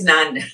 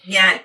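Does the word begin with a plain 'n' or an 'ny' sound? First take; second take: n; ny. First: The word begins with a plain n sound. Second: The word begins with an ny sound. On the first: It sounds like the Tamil word. The speaker calls it wrong. "my nyan is nan. Tamil nanan" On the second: It sounds like the Malayalam word. The speaker calls it right. "it's nyan, nyan, not nan"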